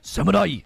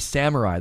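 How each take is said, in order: First: It is said with crisp, bouncing Japanese-style consonants. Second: It is said with smooth, English-style sounds. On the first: "they say samurai" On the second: "They don't say samurai"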